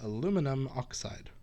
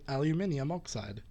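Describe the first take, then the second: First: The name is said the American way, four syllables. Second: The name is said the British way, five syllables.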